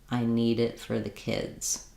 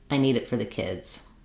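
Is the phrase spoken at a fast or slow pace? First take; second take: slow; fast. First: The phrase is spoken at a slower pace. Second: The phrase is spoken at a quicker pace. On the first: "at a slower rate" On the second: "If that speed or that rate is too fast for you"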